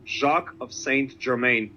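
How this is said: The name is pronounced the American way.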